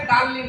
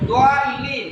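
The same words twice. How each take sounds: First: "দালিন" with a light D and open "দা"; light plain D. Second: "দোয়ালিন" with a full, heavy D; heavy Arabic Dad. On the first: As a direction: say "দালিন" thin, without rounding the D. ("দালিন" হালকা দালে) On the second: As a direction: round the opening "দোয়া" in "দোয়ালিন". ("দোয়ালিন" পূর্ণ মোটা দোয়াদে) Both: Shown as a demonstration. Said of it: "ডাল হলে দালিন হতো".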